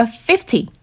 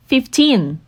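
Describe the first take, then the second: First: "fifty" with the weight on the first syllable, FIF-ty, second syllable light; stress on FIF. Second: Put-on "fifteen" with the weight on the end, fif-TEEN, drawn out; stress on TEEN. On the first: Teacher contrasting fifty with fifteen, first syllable stressed. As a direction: push the fif of "fifty", let ty fall away. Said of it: "여기에 강세가 주어져요". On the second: Teacher contrasting fifteen with fifty, end syllable stressed. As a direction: lean hard on teen in "fifteen". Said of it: "이건 teen의 강세가 주어져요". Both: Shown as a demonstration.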